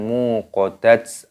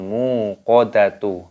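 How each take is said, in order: First: The word ends with a ts sound. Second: The word ends with a tu sound.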